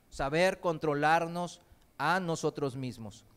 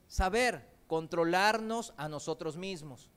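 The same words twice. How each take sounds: The two takes are said the same way.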